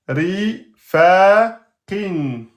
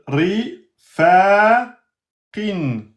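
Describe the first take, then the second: No difference in how they are said.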